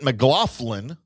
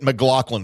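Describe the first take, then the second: First: The name is said with an F sound. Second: The name is said without an F sound.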